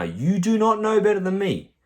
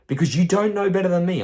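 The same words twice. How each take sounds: First: "not" punched high and loud; stress on not. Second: Loud, higher, scolding the client; raised scolding. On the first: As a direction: hit "not" hard, higher and louder. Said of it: "I'm telling you right now". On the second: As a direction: put them in their place, loud and high. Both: Real, not acted.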